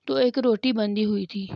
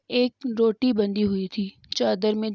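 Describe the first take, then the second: First: Said in the usual way. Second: Hushed, unvoiced repeat of the line; whisper. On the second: Shown as a demonstration. Preacher telling of the bread tied in her shawl, whispered. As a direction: drop to a whisper on ایک روٹی بندھی ہوئی تھی.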